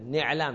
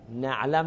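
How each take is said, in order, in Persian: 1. مصوت اول صدای 'i' است. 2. مصوت اول صدای 'a' است. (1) "حرف مضارع رو کسره میدن" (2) "نعلم نمیگن"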